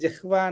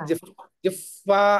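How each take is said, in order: First: The h and v are said plainly, as written. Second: The h and v merge into an f-like sound. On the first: This is the usual everyday pronunciation. "మీరు జిహ్వా అన్నా కూడా పర్వాలేదు" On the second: This follows a traditional recitation practice. "జిహ్ జిహ్వా అంటున్నాను అనమాట"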